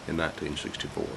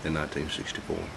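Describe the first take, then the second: No difference in how they are said.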